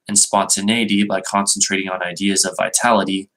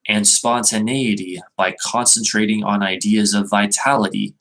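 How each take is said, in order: First: It is read plainly, without special emphasis. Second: It is read with strong, forceful emphasis.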